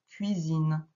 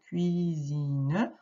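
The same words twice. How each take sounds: First: The word is said smoothly at normal speed. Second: The word is said slowly, syllable by syllable. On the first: The reader reads it fluently. "tu le lis normalement" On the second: The reader is still decoding the word. "Tu peux faire comme ça au début quand tu vas décoder ton mot"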